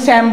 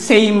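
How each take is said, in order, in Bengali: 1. এই স্বরধ্বনিটি একটি ছোট, চাপা 'a' ধ্বনি। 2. এই স্বরধ্বনিটি একটি লম্বা 'ay' ধ্বনি। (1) "আমরা কিন্তু স্যাম বলি না" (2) "সেম বলি"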